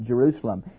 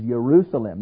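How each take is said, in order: First: The word begins with a J sound. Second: The word begins with a Y sound. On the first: The speaker calls it wrong. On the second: The speaker calls it right. "There is no J in Hebrew. So it's everything is"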